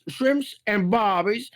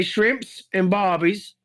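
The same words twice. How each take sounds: First: Slow attempt at an Aussie voice; faltering Aussie accent. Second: Stock phrase in a put-on Aussie accent. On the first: Performer hunts for his lost voice, faltering Aussie accent. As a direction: feel slowly for the Aussie accent. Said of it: "I lost the damn voice". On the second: Struggling performer shows his stock line, Aussie accent. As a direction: toss it out as cartoon Aussie. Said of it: "we gotta say shrimps and barbies". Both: Shown as a demonstration.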